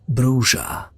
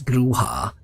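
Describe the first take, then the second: First: The word is pronounced the English way. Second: The word is pronounced the Spanish way. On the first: This is how the creators intended it. "in the first edition, the rulebook says Bruja" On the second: This is how it is said in some areas of the US. "because of the Spanish influence, it's Bruja"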